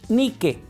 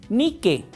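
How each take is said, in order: Both takes have the same delivery.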